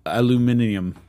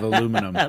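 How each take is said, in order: First: "aluminium" with five syllables, al-yoo-MIN-ee-um; British pronunciation. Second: "aluminum" with four syllables, uh-LOO-mi-num; American pronunciation. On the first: Host showing how the Brits say it, "aluminium" stressed on MIN. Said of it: "how they say". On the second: Host contrasting with the Brits, "aluminum" stressed on LOO. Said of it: "instead of aluminum". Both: Shown as a demonstration.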